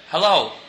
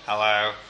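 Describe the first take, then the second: First: It is said in a Yorkshire accent. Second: It is said in a put-on alien voice.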